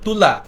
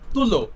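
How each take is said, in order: First: The word ends with an 'a' sound. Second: The word ends with an 'o' sound. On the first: This is the standard form. "সুন্দর করে বলবো তুলা, তখন হয়ে যাবে সেটা প্রমিত" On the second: This is the colloquial form. "তুলো হয়ে যাবে চলিত"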